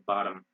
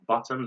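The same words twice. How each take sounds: First: "bottom" as BAH-dum; American "bottom", flapped T; American pronunciation. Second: "bottom" as BOT-tum; British "bottom", rising, crisp T; British pronunciation. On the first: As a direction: say "bottom" with ah and tapped D. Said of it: "in American becomes ah". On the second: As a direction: say "bottom" with round o and true T. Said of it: "they say bottom". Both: Shown as a demonstration.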